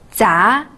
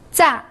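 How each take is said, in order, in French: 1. La hauteur monte du milieu vers le haut. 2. La hauteur chute brusquement depuis le haut.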